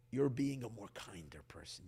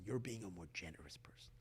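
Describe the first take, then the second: First: Said in the usual way. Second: Soft unvoiced whisper on generous person. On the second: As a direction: drop into a hushed secret. Repeats line, then whispers variant.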